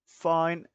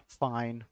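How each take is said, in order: First: Higher, louder mock-resigned fine; exasperated fine. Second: Said in the usual way. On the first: Real, not acted. Streamer sighing at markets, exasperated. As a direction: toss off a fed-up fine.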